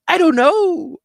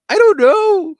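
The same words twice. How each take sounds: First: High, loud, strained falsetto sergeant; panicked sergeant. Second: Even higher and louder squealing falsetto; panicked sergeant. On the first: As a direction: squeal it like a sergeant who has lost it. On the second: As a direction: push the squeal further, shouting it. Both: Retold or imitated. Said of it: "You know, just like that".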